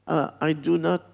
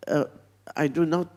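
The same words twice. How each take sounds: The two takes are said the same way.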